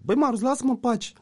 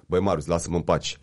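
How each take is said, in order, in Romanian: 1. Se spune cu o voce slabă, timidă. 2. Se spune cu o voce fermă, încrezătoare. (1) "Că dacă stai cocoșat" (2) "Dacă stai drept, umerii în spate, pieptul în față"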